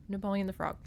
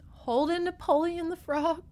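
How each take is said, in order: First: Said in the usual way. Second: High rising glee on Napoleon; delighted. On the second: Real, not acted. Vlogger delighted by the frog Napoleon, high and gleeful. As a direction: savour the frog's name.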